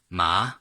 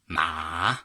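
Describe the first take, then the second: First: The pitch rises upward. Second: The pitch falls and then rises. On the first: "second, ... second tone, ma, going up" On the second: "third, ... third tone, falling and then rising"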